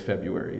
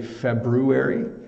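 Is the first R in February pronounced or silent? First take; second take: silent; pronounced. First: The first R after the B is silent. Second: The first R after the B is pronounced. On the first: It is the common everyday way. "ninety-nine percent of the world says February" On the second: It sounds very proper. "you can say the R, but almost no one does"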